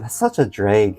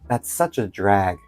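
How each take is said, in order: First: Drag is said with a northern Midwest vowel. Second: Drag is said with a plain standard vowel.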